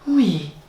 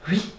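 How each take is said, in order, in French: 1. Le mot est dit d'un ton taquin et flirteur. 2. Le mot est dit d'un ton neutre.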